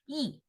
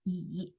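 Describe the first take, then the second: First: The pitch falls sharply and stays down. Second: The pitch falls first and then rises. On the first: "it pronounces the fourth tone. So you go down. It's falling tone" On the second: "蚂蚁的蚁 is the third tone. So you go down first and then you go up"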